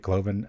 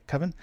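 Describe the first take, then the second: First: An L sound follows the first K sound. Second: No L sound follows the first K sound. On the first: The speaker calls it wrong. "I always say Cloven" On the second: The speaker calls it right. "I said it right that time, though"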